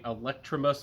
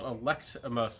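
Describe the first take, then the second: First: The name has an r sound, like electricity. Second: The name has no r sound, like elect. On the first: The speaker calls it wrong. "like electricity. I was saying it wrong" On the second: The speaker calls it right. "like you elect somebody"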